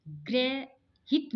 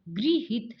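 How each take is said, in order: First: ग्रहित said slowly as grehit; drawn-out grehit for ग्रहित; wrong ग्रहित. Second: गृहित said as grihit; correct way. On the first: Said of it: "ग्रहित नहीं होगा". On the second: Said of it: "गृहित शब्द होगा". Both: Shown as a demonstration.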